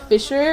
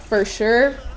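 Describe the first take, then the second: First: The word sounds like 'fisher'. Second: The word sounds like 'for sure'. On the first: The speaker calls it wrong. "this is like Fisher" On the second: The speaker calls it right. "it's supposed to be pr- pronounced like for sure"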